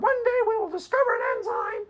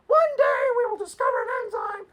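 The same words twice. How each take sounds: First: High, prissy mocking voice; mock Patricia Churchland. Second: High, far-off mocking voice; Patricia Churchland imitation. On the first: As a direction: squeak it out like a smug professor. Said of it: "literally word for word". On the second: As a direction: squeak like a smug professor. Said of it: "It's a good imitation".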